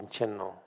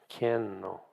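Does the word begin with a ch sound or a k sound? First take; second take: ch; k. First: The word begins with a ch sound. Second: The word begins with a k sound. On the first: The speaker calls it wrong. "it's not really Chenno" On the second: The speaker calls it right. "It's Kenno"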